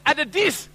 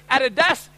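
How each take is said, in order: First: "Adidis" with an I sound in the last syllable; "Adidis", ending in -dis; misspelt brand pronunciation. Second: "Adidas" with an A sound in the last syllable; "Adidas", ending in -das; proper brand pronunciation. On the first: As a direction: read out the fake "Adidis", indignantly. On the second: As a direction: say "Adidas" as the real brand, indignantly. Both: Acted. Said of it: "There's a spelling mistake".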